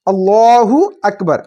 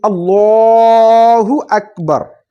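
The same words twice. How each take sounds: First: Said in the usual way. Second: Chanted takbir, held long; drawn-out takbir. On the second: Shown as a demonstration. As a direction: call it out long like the imam. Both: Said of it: "takbir demo".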